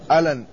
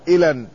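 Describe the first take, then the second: First: The first vowel is an 'a' sound. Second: The first vowel is an 'i' sound. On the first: "بفتح الهمزة" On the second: "وكسرها"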